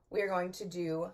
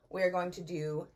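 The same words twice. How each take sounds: The two takes are said the same way.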